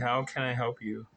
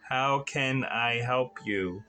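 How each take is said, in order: First: It is said at normal speed and loudness. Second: It is said slower and a bit louder.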